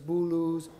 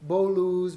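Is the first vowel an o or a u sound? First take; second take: u; o. First: The first vowel is a u sound. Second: The first vowel is an o sound. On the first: This is the colloquial Tehran form. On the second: This is the standard form.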